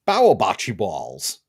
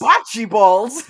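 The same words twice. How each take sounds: First: Slow, thick New York accent, "Bower bocce balls" drawn out. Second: Thick New York accent on "Bocce balls", "Bocce" said "Botchi". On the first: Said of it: "thick New York accent". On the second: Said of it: "With a nice thick New York accent". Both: Shown as a demonstration.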